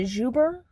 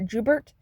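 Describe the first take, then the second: First: The final t sound is silent. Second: The final t sound is pronounced. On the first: The speaker calls it right. "I'm assuming it's a Juber" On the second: The speaker calls it wrong. "not Jubert"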